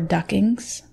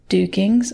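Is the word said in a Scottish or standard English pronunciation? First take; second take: standard; Scottish. First: The word is said with a standard English pronunciation. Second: The word is said with a Scottish pronunciation.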